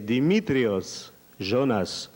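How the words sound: The name is said with Greek pronunciation. He is singing for Greeks. "si je chante pour les Grecs"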